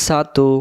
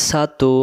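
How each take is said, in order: Both takes have the same delivery.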